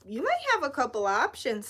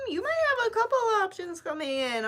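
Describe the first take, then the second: First: Said in the usual way. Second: High sing-song. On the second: Real, not acted. Repeats the same line.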